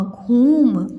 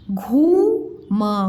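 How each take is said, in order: First: घूम as one word with a long ऊ; blended word. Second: घूम split, long rising घू, then म; sounded out slowly. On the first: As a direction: join घूम up and stretch the vowel. (घूम एक साथ, लंबे ऊ से) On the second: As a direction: sound out घूम in two slow pieces. (घूम को अलग-अलग तोड़कर, धीरे) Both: Shown as a demonstration. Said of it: "उच्चारण ऐसे में करके बताया करूँ".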